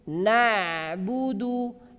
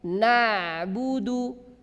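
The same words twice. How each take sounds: Both takes have the same delivery.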